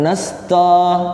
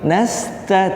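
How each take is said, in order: First: The t syllable sounds heavy and thick. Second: The t syllable sounds light and thin. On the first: The speaker calls it wrong. "bukan nasto" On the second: The speaker calls it right. "nasta tipis ya"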